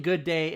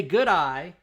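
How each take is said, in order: First: Good day said to sound like "good eye"; Australian accent demo. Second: Good eye said clearly as two ordinary words; plain English words. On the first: Co-host explaining the trick to chat, Australian good day. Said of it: "you are saying". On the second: Co-host teaching the accent trick, good eye as written. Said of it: "if you guys just say". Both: Shown as a demonstration.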